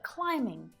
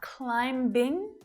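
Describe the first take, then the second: First: The B sound is left out entirely. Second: The B sound is clearly pronounced. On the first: The speaker calls it right. "but climbing" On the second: The speaker calls it wrong. "It's not climbing"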